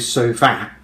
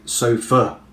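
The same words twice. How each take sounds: First: The final syllable has a full, unreduced vowel. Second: The final syllable has a weak 'uh' vowel. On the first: The speaker calls it wrong. "you don't say sofa" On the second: The speaker calls it right. "you say sofa. So it has a kind of uh"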